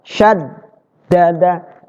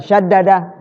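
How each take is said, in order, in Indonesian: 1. Bunyi d didobel dan ditahan. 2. Bunyi d pendek, tidak ditahan. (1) "Ditahan di dalnya itu" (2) "bukan syaddada"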